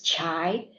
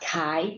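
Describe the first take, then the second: First: The name begins with a ch sound. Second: The name begins with a k sound. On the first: The speaker calls it right. "my last name is pronounced as Chai" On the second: The speaker calls it wrong. "not Kai"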